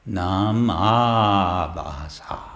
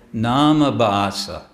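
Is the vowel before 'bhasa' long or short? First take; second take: long; short. First: The vowel before bhasa is long. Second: The vowel before bhasa is short. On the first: The speaker calls it right. "It's a long A, Abhasa" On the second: The speaker calls it wrong. "devotees will pr- mispronounce. Um, they'll say"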